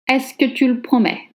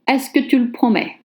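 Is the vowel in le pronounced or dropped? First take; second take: dropped; dropped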